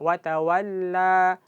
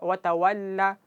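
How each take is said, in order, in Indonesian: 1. Vokal akhir dibaca dua harakat. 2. Vokal akhir dibaca satu harakat. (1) "Jadi dua harakat" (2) "kalau kita baca wa tawalla itu cuma satu harakat"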